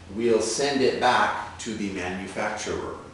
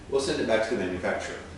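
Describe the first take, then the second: First: The sentence is spoken slowly and carefully. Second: The sentence is spoken quickly and naturally. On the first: "Let's read it slowly" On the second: "let's try it quickly"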